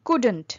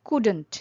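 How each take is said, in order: Both takes have the same delivery.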